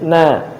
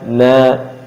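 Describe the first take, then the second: First: The syllable is said light, with a thin vowel. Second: The syllable is said heavy, with a dark vowel. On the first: The speaker calls it right. "Tapi na. / Nanya tetap dibaca istifal tipis" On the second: The speaker calls it wrong. "Jangan sampai gara-gara uh, sebelumnya adalah ra yang dibaca tebal"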